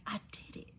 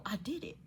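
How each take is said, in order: First: Hushed whisper, barely any voice. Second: Said in the usual way. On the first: Real, not acted. Telling viewers she faced her fear, whispered. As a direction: drop to a real whisper.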